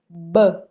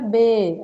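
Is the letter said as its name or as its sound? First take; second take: sound; name. First: Only the bare consonant sound is made. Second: The letter is said by its full name. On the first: The speaker calls it right. "é o mesmo som que a gente tem em bola" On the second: The speaker calls it wrong. "a gente não fala assim, essa aqui é a letra B"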